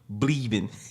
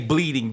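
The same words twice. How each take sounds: First: The word ends with a clipped -in sound. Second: The word ends with a full -ing sound. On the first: This is how the speakers' own group says it. The speaker calls it right. "We say what? Bleeding" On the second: This is how others would say it. The speaker calls it wrong. "We don't say bleeding"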